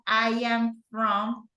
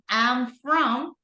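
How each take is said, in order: First: I am is said as two separate words. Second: I am is contracted into one syllable. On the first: "or you can go I am from"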